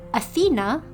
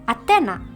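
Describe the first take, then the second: First: It is said with an English accent. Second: It is said with an Indonesian accent.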